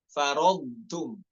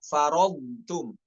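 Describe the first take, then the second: No difference in how they are said.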